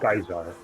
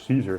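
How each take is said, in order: First: The name begins with a hard K sound. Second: The name begins with a soft S sound.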